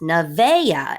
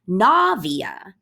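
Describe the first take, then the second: First: The stress is not on the first syllable. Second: The stress is on the first syllable. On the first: The speaker calls it wrong. "Navea is how some people pronounce this" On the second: The speaker calls it right. "she puts her emphasis on the na"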